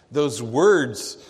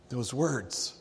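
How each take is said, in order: First: Said in the usual way. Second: Softer echo. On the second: Acted. Stunned father echoing Jesus' words to himself, softly. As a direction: echo "those words" much softer, trailing away.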